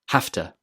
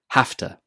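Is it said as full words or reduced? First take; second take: reduced; reduced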